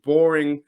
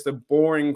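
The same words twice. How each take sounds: First: Boring in air quotes, a touch louder; ironic boring. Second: Said in the usual way. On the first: Shown as a demonstration. Fan vlogger mocks the so-called boring QB race, ironic. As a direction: lean on boring with irony. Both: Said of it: "quote unquote".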